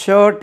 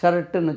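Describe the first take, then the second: First: ஷர்ட் loud, as English "shuht" with silent r; emphatic ஷர்ட், clean final t and no u; correct pronunciation. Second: ஷர்ட்டுன்னு as Tamil "sharttu", open a, sounded r; ஷர்ட்டுன்னு pronounced as spelt in Tamil; common mispronunciation. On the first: Shown as a demonstration. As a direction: firmly model ஷர்ட் with long central vowel. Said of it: "என்று உச்சரிக்கணும்". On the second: Retold or imitated. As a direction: quote the local ஷர்ட்டுன்னு with doubled t and added u. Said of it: "சொல்றது கேட்டிருக்கோம்".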